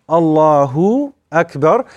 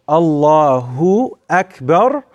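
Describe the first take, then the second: No difference in how they are said.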